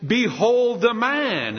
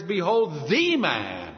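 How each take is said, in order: First: "Behold" drawn out high and loud, "the" unstressed; proclaimed BEHOLD. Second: "the" said as a long, stressed "thee"; slow down and lean hard on "the" before "man". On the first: Retold or imitated. Pilate showing Jesus to the crowd, loud drawn-out "Behold". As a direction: proclaim "Behold the man" slowly, leaning on "Behold". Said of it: "He says". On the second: Shown as a demonstration. Preacher showing the true meaning, stressing "the" as "thee". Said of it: "the emphasis there is".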